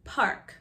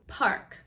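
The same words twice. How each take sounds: First: The R is fully pronounced with rounded lips. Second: The same.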